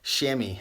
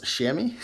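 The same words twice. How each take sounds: First: Chamois said as "shammy", falling; Chamois, "shammy", read off firmly; reading out pronunciation. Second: Chamois? said as "shammy", rising; Chamois, "shammy", asked doubtfully; unsure pronunciation. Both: Real, not acted. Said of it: "is that how it's pronounced?".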